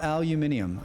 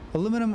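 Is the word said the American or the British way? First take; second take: British; American. First: It is said with five syllables, ending -nium. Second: It is said with four syllables, ending -num. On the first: "the rest of the English speakers say aluminium" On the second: "as American are Americans the only English speakers who say aluminum"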